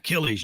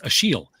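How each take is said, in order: First: The name is pronounced the usual English way. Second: The name is pronounced the French way.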